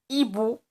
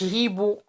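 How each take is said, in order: First: No h sound is heard at the start. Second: An h sound is heard at the start. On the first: The speaker calls it right. "la lettre H ما كتنطقش في la langue française" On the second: The speaker calls it wrong. "ما كنقولوش hibou"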